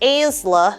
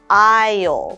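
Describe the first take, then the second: First: An S sound is pronounced. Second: No S sound is pronounced. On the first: The speaker calls it wrong. "or aisla" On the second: The speaker calls it right. "it's aisle"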